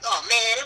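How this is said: The voice sounds angry and irritated. The character is annoyed. "he could be mad"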